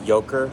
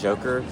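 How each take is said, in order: First: The word begins with a Y sound. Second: The word begins with a J sound. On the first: The speaker calls it right. "I'm gonna go out on a limb here and say this is Yoker" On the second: The speaker calls it wrong. "not Joker"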